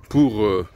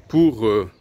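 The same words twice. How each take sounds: The two takes are said the same way.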